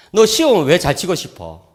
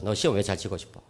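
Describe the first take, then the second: First: Asking son. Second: Soft repeat. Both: Retold or imitated. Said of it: "물었어요".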